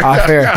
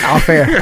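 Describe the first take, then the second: First: Chuckling while saying it; laughing. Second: Said in the usual way. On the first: Real, not acted. Host repeats off air while laughing. Joking about naming the shop. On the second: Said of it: "You gotta tell me the name".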